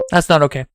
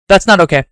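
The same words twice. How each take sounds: First: Said in the usual way. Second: Firm, disapproving; mock stern. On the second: Shown as a demonstration. Telling the stream firmly it's not okay. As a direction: scold it flatly.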